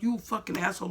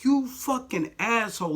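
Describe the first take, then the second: First: A touch higher, less stretched insult; milder contempt. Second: Slow, high, disgusted insult; contemptuous inner thought. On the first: Repeating the thought about the manager, milder disgust. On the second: Thinking it at the manager who called it a prank, slow high disgust. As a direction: spit the insult out slowly in your head. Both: Retold or imitated. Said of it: "that's what I'm thinking in my head".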